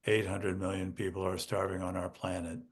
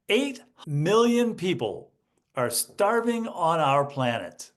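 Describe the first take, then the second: First: Said in the usual way. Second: Million stressed, slow and emphatic; with life. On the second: Shown as a demonstration. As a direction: make "million" and "starving" land slowly. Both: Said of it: "you get that from the life in my voice".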